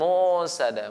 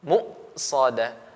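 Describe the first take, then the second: First: The voice flows on without a catch. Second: The voice is briefly held after mu. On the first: The speaker calls it wrong. "bukan musadah" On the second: The speaker calls it right. "Jadi tertahan suara kita"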